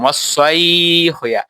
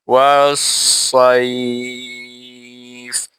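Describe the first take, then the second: First: Said in the usual way. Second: সাইফ held long and stopped on the last sound; ওয়াস সাইফ recited with the waqf stop at the end; pausal stop. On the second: Shown as a demonstration. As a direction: stretch সাইফ slowly, then stop dead on ফ. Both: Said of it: "এই যে এখানে ওয়াকফ করলাম".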